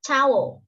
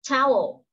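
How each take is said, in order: First: Towel clearly stressed; model word. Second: Towel repeated clearly; model word repeated. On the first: (đọc mẫu towel) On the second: (đọc lại Towel) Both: Shown as a demonstration. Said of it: "Khăn tắm chúng ta đọc là".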